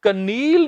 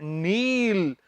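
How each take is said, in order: First: ਕਨੀਲ with the k sounded; ਕਨੀਲ, k pronounced as a mistake; wrong pronunciation. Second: ਨੀਲ with a silent k, starting on the n; ਨੀਲ, slow and careful as the right form; correct pronunciation. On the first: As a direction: say ਕਨੀਲ with a spoken k before the n. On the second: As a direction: say ਨੀਲ slowly, no k sound. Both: Shown as a demonstration. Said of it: "ਸਹੀ ਉਚਾਰਨ ਹੈ ਨੀਲ".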